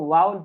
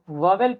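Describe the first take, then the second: First: The first syllable sounds like 'vow', with a reduced ending. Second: The first syllable sounds like 'vo', with a full second syllable. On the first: The speaker calls it right. "इसको वॉवेल नहीं पढ़ते हैं बल्कि इसको वाउल पढ़ते हैं" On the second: The speaker calls it wrong. "बहुत सारे स्टूडेंट इसको वॉवेल पढ़ते हैं"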